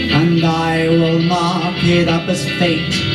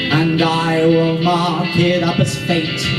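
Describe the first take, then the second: The two takes are said the same way.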